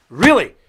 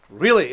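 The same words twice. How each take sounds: First: Loud sarcastic disbelief; incredulous. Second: Flat sarcastic repeat. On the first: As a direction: scoff it out, louder. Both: Real, not acted. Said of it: "repeats the word, mocking".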